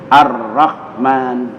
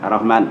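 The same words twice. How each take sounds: First: The r is doubled, heavy and trilled. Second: The r is short and single, not doubled. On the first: The speaker calls it right. "Iya, bergetar" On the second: The speaker calls it wrong. "ya nggak kena sabdunya"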